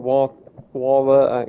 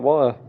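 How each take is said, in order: First: The middle T sound is clearly pronounced. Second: The middle T sound is dropped. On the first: "I don't go" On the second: "Can't pronounce the T in water. Because that's how I say it"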